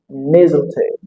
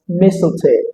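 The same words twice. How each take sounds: First: The middle consonant is a buzzing Z sound. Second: The middle consonant is a hissing S sound. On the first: "some speakers that pronounce it with the sound Z" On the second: "I would love to pronounce this word as mistletoe"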